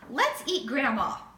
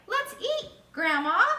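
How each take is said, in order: First: It runs straight on with no pause before grandma. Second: There is a short pause before grandma. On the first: Grandma is the dinner. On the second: Grandma is being called to dinner.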